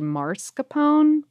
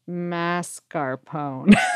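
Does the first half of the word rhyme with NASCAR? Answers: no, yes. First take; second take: no; yes. First: The middle sounds are swapped around. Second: The first half rhymes with NASCAR. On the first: The speaker calls it wrong. "previously say mascarpone" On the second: The speaker calls it right. "it should rhyme with NASCAR"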